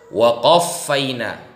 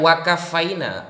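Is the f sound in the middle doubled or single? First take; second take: doubled; single. First: It has a deep q and a doubled f. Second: It has a plain k and a single f. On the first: The speaker calls it right. "Saya kasih contoh cara baca Al-Quran yang benar ya" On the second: The speaker calls it wrong. "Bukan waqafaina. Mbak barusan membaca waqafaina"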